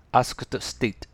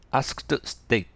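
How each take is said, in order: The two takes are said the same way.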